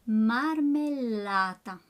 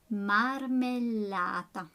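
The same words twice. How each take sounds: The two takes are said the same way.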